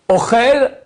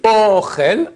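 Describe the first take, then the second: First: Ochel with the chel punched high and loud; stress on last syllable. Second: Ochel stressed on O, rising; stress on first syllable. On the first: Teacher explaining Ochel as he eats, end stress, higher and louder. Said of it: "c'est il mange". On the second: Teacher explaining Ochel as food, first-syllable stress. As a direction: say Ochel with the weight on O, meaning food. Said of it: "ça c'est la nourriture". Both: Shown as a demonstration.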